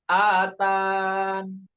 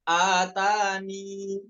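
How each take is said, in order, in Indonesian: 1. Kata ini berakhir dengan bunyi n yang ditahan. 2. Kata ini berakhir dengan vokal 'ee'. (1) "dihapus huruf ya-nya ya ketika wakof nun" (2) "Pertama dengan mengisbat ya, dengan dibaca huruf ya tadi"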